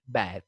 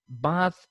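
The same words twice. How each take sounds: First: "bath" said BATH, vowel as in cat; American pronunciation. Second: "bath" said BAHTH, long ah; British pronunciation. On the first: Teacher contrasting varieties, American "bath" with ae. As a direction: stretch the ae in "bath". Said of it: "the a sound is pr". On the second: Teacher contrasting varieties, British "bath" with ah. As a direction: open "bath" out to ah. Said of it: "here a sound is there". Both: Shown as a demonstration.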